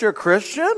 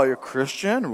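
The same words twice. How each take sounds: First: Rising, higher mock-amazed question; a lightly voiced surprised stranger; mock surprise. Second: Lower, softer falling question; a lightly voiced doubtful stranger; mock disbelief. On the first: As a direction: play the stranger's fake astonishment. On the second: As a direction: let it drop in dry disbelief. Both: Mocking stranger quoting churchgoer.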